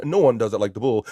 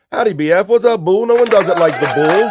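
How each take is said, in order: First: Said in the usual way. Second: Louder, higher, big booming welcome; hyped-up greeting voice. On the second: Acted. Host reading a fan's greeting aloud, loud and hyped. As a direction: boom it out like a hype man.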